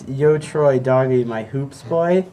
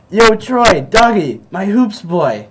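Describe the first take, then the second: First: It is said plainly, without acting it out. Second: It is said acted out, in character. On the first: "you didn't say it like that" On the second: "say it like you did"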